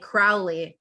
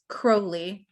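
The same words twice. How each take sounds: First: The first syllable rhymes with 'now'. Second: The first syllable rhymes with 'know'. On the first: This is how his enemies said his name. The speaker calls it wrong. "My enemies call me Crowley, but that's foully" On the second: This is how the man himself said his name. The speaker calls it right. "rhymes with holy"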